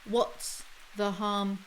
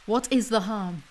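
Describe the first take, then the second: First: It is contracted to 'what's'. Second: It is said in full as 'what is'. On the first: The speaker calls it right. "Contract. That would flow better" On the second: The speaker calls it wrong. "your writing sounds very unnatural"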